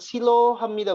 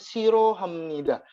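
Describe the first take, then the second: First: The second syllable starts with a clear L sound. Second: The second syllable starts with a flapped R sound. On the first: The speaker calls it wrong. "bukan bukan bukan silo hamnida bukan" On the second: The speaker calls it right. "tapi dibacanya siro hamnida"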